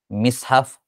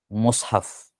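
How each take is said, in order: First: The first vowel is a front i. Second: The first vowel is a rounded u. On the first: "yang paling ringan adalah kasrah" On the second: "yang masyhur tentunya mushaf"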